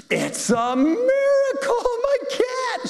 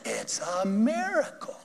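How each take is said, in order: First: Very high, slow, squealing "It's a miracle"; shrieked joy. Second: Awed. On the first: The cat owner shrieks to the pastor, very high and slow. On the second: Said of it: "And she said". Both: Retold or imitated.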